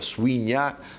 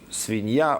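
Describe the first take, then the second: First: The word begins with a 'w' semivowel. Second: The word begins with a 'v' sound.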